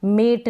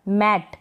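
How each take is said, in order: First: मेट with long "ay", like "mate"; wrong pronunciation. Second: मैट with open "ae", as in "mat"; correct pronunciation. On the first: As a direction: say मेट with closed e. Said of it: "नहीं पढ़ेंगे". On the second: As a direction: say मैट with short open vowel. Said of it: "मेट नहीं पढ़ेंगे". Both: Shown as a demonstration.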